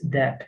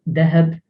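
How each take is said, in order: First: No h sound is heard mid-word. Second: A slight h sound is heard mid-word. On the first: This is the standard, official form. "The proper way, the the official way of saying it" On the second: Older speakers in some areas say it this way. "There are some people who pronounce with a slight h"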